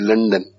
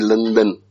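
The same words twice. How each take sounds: First: The name is said with an English pronunciation. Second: The name is said with an Urdu-style pronunciation. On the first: The speaker calls it right. "You will say London" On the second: The speaker calls it wrong. "you will not say London"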